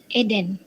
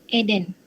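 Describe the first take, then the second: Both takes have the same delivery.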